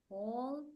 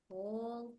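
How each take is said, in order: No difference in how they are said.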